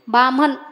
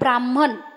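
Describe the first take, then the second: First: The word is said in a shortened form. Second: The word is said in its full form. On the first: This is the everyday corrupted form. "आपण काय म्हणतो" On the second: This is the original word. "मूळ शब्द आहे"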